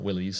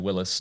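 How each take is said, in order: First: The name ends with an 'eez' sound. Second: The name ends with a short 'is' sound. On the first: The speaker calls it wrong. "not Willys" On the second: The speaker calls it right. "I said it correctly, Willis"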